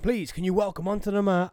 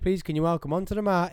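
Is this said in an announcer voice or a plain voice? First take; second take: announcer; plain. First: It is said in a showy announcer voice. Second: It is said in a plain everyday voice. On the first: "when I announce" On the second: "I can't just say"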